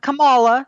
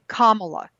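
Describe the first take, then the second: First: The name begins like the name Pamela. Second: The name begins like the word comma. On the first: The speaker calls it wrong. "Not Kamala, It's not like Pamela" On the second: The speaker calls it right. "It's comma"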